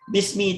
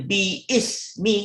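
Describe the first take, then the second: First: The alif is silent and the words are joined. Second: The alif is pronounced as a separate vowel. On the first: The speaker calls it right. "Bismi terus" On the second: The speaker calls it wrong. "kita tak baca bi ismi kan"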